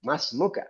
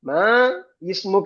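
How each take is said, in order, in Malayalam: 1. രണ്ട് വാക്കുകളും ചേർന്നാണ് വരുന്നത്; ദീർഘ സ്വരവും i യും ഇല്ലാതാകുന്നു. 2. രണ്ട് വാക്കുകളും വേറിട്ടാണ്; ദീർഘ സ്വരവും ആദ്യത്തെ i യും ഉണ്ട്. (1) "ചേർത്ത് വായിക്കുമ്പോൾ പോകും" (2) "മാ ഇസ്മുക എന്നാണ്"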